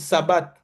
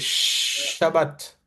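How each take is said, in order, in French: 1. Le mot commence par le son s. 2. Le mot commence par le son sh. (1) "On va lire Sabbat" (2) "Mais c'est Shabbat"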